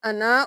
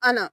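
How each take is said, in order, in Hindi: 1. आख़िरी स्वर को लंबा खींचा गया है। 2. आख़िरी स्वर को छोटा रखा गया है। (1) "हमने वहां पे किया था अना" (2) "यहाँ पे है अना"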